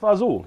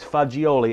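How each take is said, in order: First: It is clipped short to two syllables. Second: It is said in full with three syllables. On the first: This is the informal dialect form. "in dialect or you're down southern Italy and you're saying things with a quickness" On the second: This is the formal Italian word.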